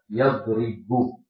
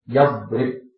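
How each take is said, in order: First: The word ends with a short 'u' vowel. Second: The word ends on a bare consonant. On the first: "boleh dibaca dengan dhammah" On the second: "boleh dibaca dengan jazm, pakai sukun"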